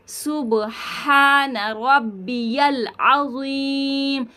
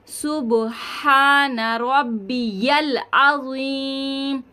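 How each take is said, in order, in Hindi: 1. बीच का शब्द 'rabbiyal' बोला जाता है, 'ya' के साथ। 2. बीच का शब्द 'rabbiyal' बोला जाता है, 'ya' के साथ।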